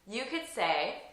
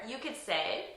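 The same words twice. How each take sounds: No difference in how they are said.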